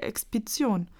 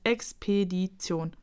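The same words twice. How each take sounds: First: Put-on Expedition said wrongly, like a child mangling the word; mispronounced expedition. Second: Expedition said properly and slowly, as a correction; correct pronunciation. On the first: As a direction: garble Expedition the way a little porcupine would. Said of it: "Das heißt Expedition". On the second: Acted. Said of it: "verbessert Kokosnuss".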